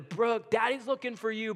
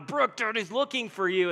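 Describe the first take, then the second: First: It is said at a calmer, quieter level. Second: It is said louder, with a tinge of anger.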